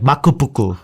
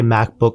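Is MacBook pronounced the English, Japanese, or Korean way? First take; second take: Japanese; English. First: It is said with Japanese pronunciation. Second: It is said with English pronunciation. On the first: "my Japanese friend will be like makupuku" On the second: "I'll say MacBook"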